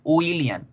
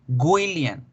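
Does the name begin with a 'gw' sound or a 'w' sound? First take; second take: w; gw. First: The name begins with a plain 'w' sound. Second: The name begins with a 'gw' sound. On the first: The speaker calls it right. "La verdadera pronunciación de la W es una U" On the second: The speaker calls it wrong. "la gente tiende a decir William ... Y así está mal"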